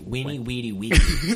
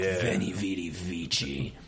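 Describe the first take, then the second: First: The words begin with W and use a K sound. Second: The words begin with V and use a Ch sound. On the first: This is how it was originally pronounced. "the V's would have been pronounced like W's. So it's actually Weenie" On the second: This is the familiar modern pronunciation. "sounds not only Italian as fuck, but it just sounds like badass"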